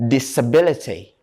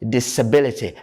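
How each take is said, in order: Both takes have the same delivery.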